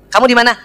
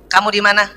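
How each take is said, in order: First: It is said in a coquettish, pampered way. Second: It is said in a plain, flat way.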